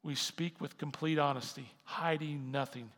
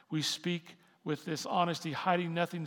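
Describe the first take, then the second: First: Said in the usual way. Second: Louder, pressing restatement of honesty and hiding; emphatic repeat. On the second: Shown as a demonstration. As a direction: drive the verse home with force. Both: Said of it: "Just listen".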